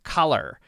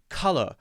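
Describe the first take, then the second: First: American accent, ending in a strong R. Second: British accent, ending in an uh sound. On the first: "Americans tend to focus more on the R sound" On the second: "you might hear a British person say sometimes maybe color"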